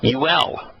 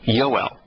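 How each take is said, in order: First: The first vowel is an 'oo' sound. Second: The first vowel is an 'oh' sound. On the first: The speaker calls it wrong. "there's not a single one of them that are pronounced today" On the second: The speaker calls it right. "as opposed to Yoel"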